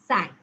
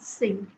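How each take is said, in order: First: The vowel sounds like the one in 'sank'. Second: The vowel sounds like the one in 'sink'. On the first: The speaker calls it right. "it's sank" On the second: The speaker calls it wrong. "Number five is not sink"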